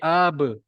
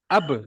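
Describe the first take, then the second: First: The sound is drawn out long. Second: The sound is short and quick. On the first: The speaker calls it wrong. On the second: The speaker calls it right.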